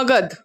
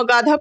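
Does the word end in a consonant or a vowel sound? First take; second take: consonant; vowel. First: The word ends on a final consonant sound. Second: The word ends with an added vowel sound. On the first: The speaker calls it right. "It is मगध" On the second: The speaker calls it wrong. "मगध को तुम मगाधा पढ़ोगी?"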